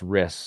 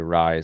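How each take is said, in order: First: The vowel is short, like in 'miss'. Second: The vowel is long, like in 'rise'. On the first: The speaker calls it right. "it's Riss" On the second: The speaker calls it wrong. "people always say Rise"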